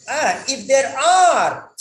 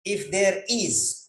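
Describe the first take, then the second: First: Are pushed higher and louder, slowly; stress on are. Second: Said in the usual way. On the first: Shown as a demonstration. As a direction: correct them by hitting are. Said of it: "if there are regular breaks". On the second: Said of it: "what is the spelling?".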